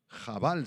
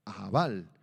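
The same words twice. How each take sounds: First: "Jabal" with a throaty opening J; "Jabal" opened on a rasped kh sound; Hebrew pronunciation. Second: "Abal" with the final syllable stressed; stress on second A. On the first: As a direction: say "Jabal" with a Hebrew guttural start. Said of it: "se pronuncia en hebreo". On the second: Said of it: "con acento en la segunda A". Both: Shown as a demonstration.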